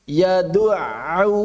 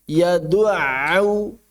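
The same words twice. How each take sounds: No difference in how they are said.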